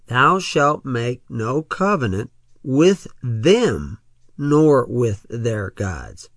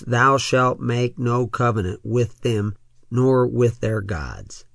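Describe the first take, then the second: First: It is read slowly. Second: It is read quickly.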